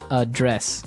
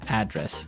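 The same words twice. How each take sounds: First: The stress is on the second syllable. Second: The stress is on the first syllable.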